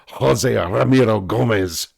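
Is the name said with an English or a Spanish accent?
Spanish. The name is said with a rolling Spanish accent. The speaker calls it right. "You've got to say"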